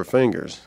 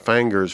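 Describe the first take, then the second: First: Said in the usual way. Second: "fangers" with an A sound for the I; Southern pronunciation. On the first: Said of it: "fangers for fingers". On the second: Shown as a demonstration. Author showing an old habit he dropped, Southern pronunciation. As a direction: say "fangers", Southern vowel as in "fang". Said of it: "stopped saying things like fangers for fingers".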